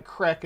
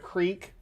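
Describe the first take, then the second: First: Crick with a short i, for creek; dialect pronunciation. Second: Said in the usual way. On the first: Shown as a demonstration. Streamer showing their dialect, creek said as "crick". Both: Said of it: "crick instead of creek".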